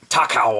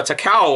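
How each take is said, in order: First: "Takao" as TAH-kow; alternative pronunciation. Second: "Takao" as tuh-KOW; unsure pronunciation. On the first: Vlogger retrying a ship's name, "Takao" as TAH-kow. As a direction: open the first vowel of "Takao" into a clear "tah". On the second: Vlogger trying out a ship's name, "Takao" as tuh-KOW. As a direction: say "Takao" with a short first vowel, weight on "kao". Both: Shown as a demonstration. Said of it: "never know how to pronounce her name".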